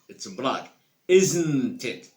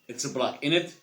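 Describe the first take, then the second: First: The tag is said as two full words. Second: The tag is squeezed into one short word.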